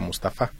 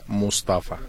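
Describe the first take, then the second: First: The stress falls where Spanish rules would place it. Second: The stress falls where Arabic places it. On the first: The speaker calls it wrong. "por la gramática española sí mucha gente lo pronuncia Mustafa" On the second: The speaker calls it right. "lo correcto en árabe se pronuncia Mustafa"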